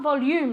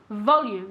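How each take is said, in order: First: The stress is on a later syllable. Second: The stress is on the first syllable. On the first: The speaker calls it wrong. "not volume like in Spanish" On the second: The speaker calls it right. "The accent goes on the O"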